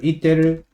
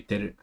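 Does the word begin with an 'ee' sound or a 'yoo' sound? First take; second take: ee; yoo. First: The word begins with an 'ee' sound. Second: The word begins with a 'yoo' sound. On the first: "instead of" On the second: "it might be"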